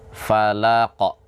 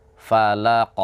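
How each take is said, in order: Both takes have the same delivery.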